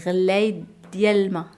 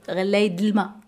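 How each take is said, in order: First: The syllable 'diel' is fully pronounced. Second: The syllable 'diel' is reduced in fast speech. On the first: "On dit relay diel-ma" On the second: "ou relay d'l'ma pour aller trop vite"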